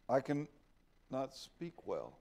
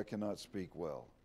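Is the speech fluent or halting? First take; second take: halting; fluent. First: It is said slowly and haltingly, with hesitation. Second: It is read smoothly at a normal pace. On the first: "Maybe that's how he said it" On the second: "I try to read it in a way that's that's uh, you can you can uh, follow it"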